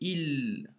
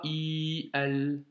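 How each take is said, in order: First: The vowels merge into one short syllable. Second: The two vowels are said as separate syllables. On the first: The speaker calls it right. "j'ai fait il" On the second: The speaker calls it wrong. "et pas i al"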